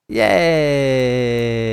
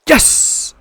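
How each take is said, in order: First: It is said flatly, without enthusiasm. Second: It is said with lively enthusiasm.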